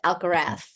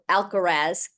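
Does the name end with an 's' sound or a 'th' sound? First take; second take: th; s. First: The final sound is a lisped th. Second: The final sound is a plain hissing s. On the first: "I feel like I'm, I'm lisping" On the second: "Glad that I get to say it that way again"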